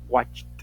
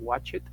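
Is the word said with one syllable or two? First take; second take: one; two. First: The ending adds no extra syllable. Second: The ending is said as an extra syllable. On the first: The speaker calls it right. "Y esa es la ed, ¿ok? No va a sonar de forma clara" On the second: The speaker calls it wrong. "No vamos a decir watch it"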